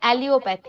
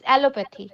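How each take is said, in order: First: An extra 'ee' sound follows the first syllable. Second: No extra 'ee' sound follows the first syllable. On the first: The speaker calls it wrong. "Not অ্যালিওপ্যাথি" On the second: The speaker calls it right. "It's অ্যালোপ্যাথি"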